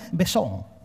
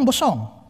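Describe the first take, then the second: First: The first vowel sounds like 'e'. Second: The first vowel sounds like 'o'. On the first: This is how another group says it. "tapi mereka bilang besong" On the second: This is how our own group says it. "Kita bilang bosong"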